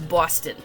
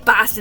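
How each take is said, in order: First: It is said in a Bostonian Long Island accent. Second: It is said in a general, non-local accent.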